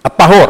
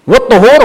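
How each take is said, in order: First: "الطهور" with a short a after the ط; فتح الطاء. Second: "والطهور" with a short u after the ط; ضم الطاء. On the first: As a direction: pronounce "الطهور" as aṭ-ṭahūr. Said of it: "الطهور بفتح الطاء". (نطق "الطهور" بفتح الطاء) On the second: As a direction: pronounce "والطهور" as waṭ-ṭuhūr. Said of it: "هو اسم للفعل". (نطق "والطهور" بضم الطاء) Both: Shown as a demonstration.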